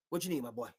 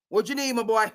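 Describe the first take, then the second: First: Soft, hushed sweet-talk; hushed coaxing. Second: Raised, higher, pushier offer; louder coaxing. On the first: Kraft quietly coaxing McDaniels, soft hushed offer. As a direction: murmur the offer close in. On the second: Kraft pressing McDaniels openly, louder and higher. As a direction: push the offer out boldly. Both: Retold or imitated. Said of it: "Bob Kraft said".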